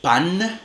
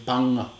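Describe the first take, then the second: First: The final nasal is made with the tongue tip. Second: The final nasal is made at the back of the mouth. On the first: "en alveolar" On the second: "con velar"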